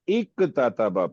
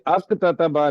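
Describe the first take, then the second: First: The word starts with an 'i' vowel. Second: The word starts with an 'a' vowel. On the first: The speaker calls it right. "या इक ततबा पढ़े" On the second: The speaker calls it wrong. "ये अक ततबा नहीं पढ़ेंगे"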